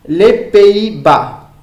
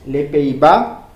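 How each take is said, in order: First: Les Pays-Bas slow and high, drawn out as a model; careful model. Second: Said in the usual way. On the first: Shown as a demonstration. Teacher models Les Pays-Bas for Spanish-speaking students, slow and clear.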